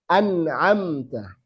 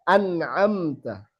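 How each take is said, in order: Both takes have the same delivery.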